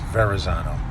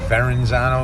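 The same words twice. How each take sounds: First: The word is said without any added N sound. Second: The word is said with an added N sound. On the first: The speaker calls it right. "It's Verrazano" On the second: The speaker calls it wrong. "For you assholes that pronounce it Verrazano, there is no N in there"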